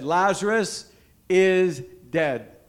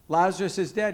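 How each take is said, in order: First: Slow and loud, each word weighted; solemn pronouncement. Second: Said in the usual way. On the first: Acted. Preacher voicing Jesus to the crowd, slow and weighty. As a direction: lay it down slowly like a verdict.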